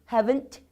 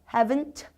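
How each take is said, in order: Both takes have the same delivery.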